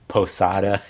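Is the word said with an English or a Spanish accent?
English. It is said with an English-speaking accent. It is adjusted for listeners who don't speak Spanish. "gringo up all the words"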